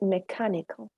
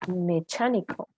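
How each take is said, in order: First: The ch is said as a k sound. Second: The ch is said like in church. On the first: The speaker calls it right. "We say mechanical" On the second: The speaker calls it wrong. "Even if you have the C H, you don't say mechanical"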